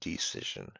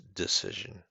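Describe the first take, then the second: First: The first vowel is not a short i sound. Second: The first vowel is a short i sound. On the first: The speaker calls it wrong. "it's pronounced as decision. And decision is incorrect" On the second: The speaker calls it right. "It's decision"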